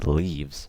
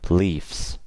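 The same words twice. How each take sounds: First: The word ends with a z sound. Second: The word ends with an s sound. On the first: The speaker calls it right. "Say leaves" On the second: The speaker calls it wrong. "I never say leaves, okay? That's wrong"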